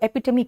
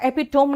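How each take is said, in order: First: The word ends with a 'mee' sound. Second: The word ends rhyming with 'home'. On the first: The speaker calls it right. "इसको एपिटमी कहते हैं" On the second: The speaker calls it wrong. "एपिटोम नहीं कहना"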